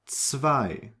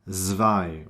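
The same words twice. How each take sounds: First: The word begins with a ts sound. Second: The word begins with a buzzing z sound. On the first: The speaker calls it right. "it is pronounced like T S" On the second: The speaker calls it wrong. "So you do not pronounce it"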